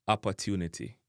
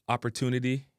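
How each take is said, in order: First: "opportunity" as "ap-a-tunity"; Jamaican pronunciation. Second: "opportunity" with English r: "op-er-tunity"; English pronunciation. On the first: Teacher giving the Jamaican version, "opportunity" with relaxed A. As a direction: open the first vowels of opportunity to "a". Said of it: "in a Jamaican". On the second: Teacher giving the English word first, "opportunity" as "op-er-tunity". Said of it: "opportunity in a English". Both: Shown as a demonstration.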